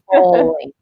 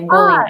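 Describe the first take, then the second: First: The O vowel in bowling sounds deep. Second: The O vowel in bowling sounds shallow. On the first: The speaker calls it right. "instead of bowling. Strong O" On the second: The speaker calls it wrong. "Italians tend to say bowling"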